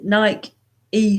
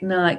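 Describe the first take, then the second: First: The name does not rhyme with bike. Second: The name rhymes with bike. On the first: The speaker calls it wrong. "what what are you doing Nike E for" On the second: The speaker calls it right. "hike, bike, Nike"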